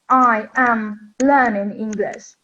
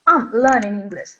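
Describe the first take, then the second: First: Each word is said separately and fully. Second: The words run together in connected speech. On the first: "we say, for example, separate words" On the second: "they can't differentiate this connected speech"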